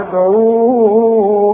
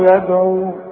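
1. الحركة الأخيرة ممدودة. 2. الحركة الأخيرة قصيرة. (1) "طيب وحوصل؟ بعد المد ايه؟ هيقابلنا حرف مهموز" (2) "اذا وقفت تقول ايه؟ ... مد طبيعي"

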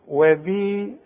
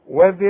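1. الحركة الأخيرة تُمد إلى حركتين. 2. الحركة الأخيرة قصيرة، وتتصل بالكلمة التي بعدها. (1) "انما اذا وقفت هقول وذي، امدها حركتين" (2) "اذا وصلنا وذي القربى يبقى عندي ذال بس، اذا سمعتني يبقى من غير الياء"

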